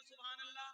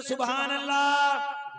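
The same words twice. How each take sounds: First: सुभान अल्लाह much softer, barely voiced; said softly. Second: सुभान अल्लाह shouted loud and slow; said loudly. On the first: Preacher teasing the crowd with a soft सुभान अल्लाह. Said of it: "जरा आहिस्ता बोलिए". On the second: Preacher leading the crowd in a loud, slow सुभान अल्लाह. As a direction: call out सुभान अल्लाह with full, drawn-out force. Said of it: "जरा जोर से बोले". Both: Shown as a demonstration.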